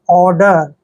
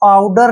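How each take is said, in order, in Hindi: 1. पहला स्वर 'or' जैसा लगता है। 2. पहला स्वर 'ow' जैसा लगता है। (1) "ओ यू जो है साइलेंट रहेंगे" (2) "आउडर नहीं"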